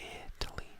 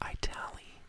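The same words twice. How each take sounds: First: The first vowel is a short 'i' sound. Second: The first vowel is said like 'eye'. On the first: The speaker calls it right. "you go to" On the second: The speaker calls it wrong. "He pronounces the I. Like, you don't go to"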